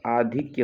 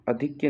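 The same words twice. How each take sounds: First: "आधिक्य" with a long first aa; correct form shown. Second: "अधिक्य" with a short first a; wrong form shown. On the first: Teacher correcting students' word, आधिक्य with long आ. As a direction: open "आधिक्य" on a full आ. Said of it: "होता है". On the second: Teacher showing the mistake to avoid, अधिक्य with short अ. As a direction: open "अधिक्य" on a brief अ. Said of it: "नहीं होता". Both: Shown as a demonstration.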